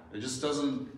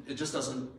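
The two takes are said the same way.

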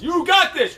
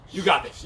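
First: High, loud rallying cry; pumped-up encouragement. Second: Said in the usual way. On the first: Real, not acted. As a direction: fire up the class. Coach pumping up class.

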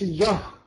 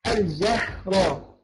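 First: الجهر with a dark "ah" after ج; wrongly heavy jeem. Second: Very slow الجهر, thin vowel on ج; light jeem. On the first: Teacher showing what not to say, heavy الجهر. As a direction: thicken the ج in الجهر. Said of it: "الجيم مرققة". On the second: Teacher modelling the correct word, slow light الجهر. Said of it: "نقول ده الجهر". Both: Shown as a demonstration.

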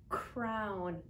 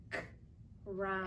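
First: Said in the usual way. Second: Bare "k", a pause, then "round"; beginning sound separated. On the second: Shown as a demonstration. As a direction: split crown after its first consonant, "k" then "round". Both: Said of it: "Listen, my beginning sound is".

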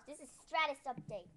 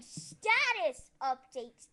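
First: "Stratus" with an extra r after the t; slip on "Stratus". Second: "status" without an r, louder and slow; corrected "status". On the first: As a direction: say "Stratus" in place of status. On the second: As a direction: stretch out "status" with no r after the t. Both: Real, not acted. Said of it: "I mean, status update".

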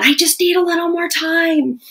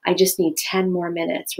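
First: Much higher, louder, exasperated whine; fighting tone. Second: Even, calm request; calm talking tone. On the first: Parent snapping at kids before dinner, much higher and exasperated. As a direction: let the stress spill out at them. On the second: Parent asking family for time, calm talking tone. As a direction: ask for time without any edge. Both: Shown as a demonstration. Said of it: "rather than".

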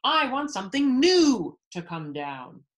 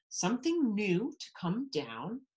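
First: Loud, high royal demand; bellowing. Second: Questioning, rising at the end; gasping disbelief. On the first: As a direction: belt out the demand, leaning on "new". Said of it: "bellowed the king". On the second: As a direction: echo it back as an astonished page boy. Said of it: "Bartholomew gasped". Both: A narrator's reading.

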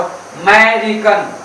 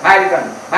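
First: "अमेरिकन" dragged out slowly with the full opening ए, the wrong way. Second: "अमेरिकन" quick with the first ए swallowed, the correct way; drop the A. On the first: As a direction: stretch out "अमेरिकन" and sound the ए fully, as the mistake. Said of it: "ऐसे नहीं बोला आपको". ("अमेरिकन" धीरे खींचकर, पूरा ए बोलते हुए, गलत तरीका) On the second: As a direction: say "अमेरिकन" briskly as "मेरिकन". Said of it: "ए को खा जाना है". ("अमेरिकन" जल्दी, पहला ए खाकर, सही तरीका) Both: Shown as a demonstration.

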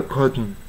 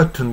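First: "カーテン" as English curt-n; "カーテン" with no vowel after the t; usual reduced form. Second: "カーテン" as English cur-tun; careful second syllable on "カーテン"; special clear t. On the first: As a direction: swallow the t into the n of "カーテン". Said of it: "大抵は". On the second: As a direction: release the t with a vowel in "カーテン". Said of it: "いくらか特殊な場合に". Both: Shown as a demonstration.

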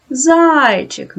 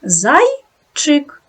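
First: "Зайчик" with the first syllable "зай" hit hard; stress on first syllable. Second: "Зайчик" split into two syllables, "зай-чик". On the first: Teacher marks the stress in "Зайчик" on the first syllable. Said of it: "Поставте наголос". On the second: Teacher dividing "Зайчик" into syllables for children. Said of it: "поділіть слово на склади". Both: Shown as a demonstration.

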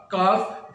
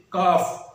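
First: کالف with the L pronounced before F; wrong, L sounded. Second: کاف with silent L, long vowel into F; correct pronunciation. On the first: Teacher shows the wrong reading, L voiced in کالف. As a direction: voice every letter in کالف. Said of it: "جو کہ غلط لفظ ہے". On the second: Teacher gives the correct reading, L-less کاف. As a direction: drop the L from کاف. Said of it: "اس کا درست لفظ". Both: Shown as a demonstration.

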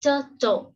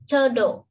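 First: Turtle spoken higher and clear; model word repeated. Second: Turtle said clearly and firmly; model word. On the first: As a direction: model turtle a second time. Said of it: "hoặc là". (đọc lại turtle) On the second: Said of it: "chúng ta đọc là". (đọc mẫu turtle rõ ràng) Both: Shown as a demonstration.

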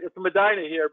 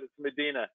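First: "Medina" pronounced meh-DYE-nuh; local Medina with EYE. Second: "Medina" pronounced meh-DEE-nuh. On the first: Host giving his local form of the name, "Medina" said meh-DYE-nuh. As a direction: say "Medina" with a long i in the middle. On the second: Host accepting the guest's own form, "Medina" said meh-DEE-nuh. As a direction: say "Medina" with a long ee in the middle. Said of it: "but it's Medina". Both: Shown as a demonstration.

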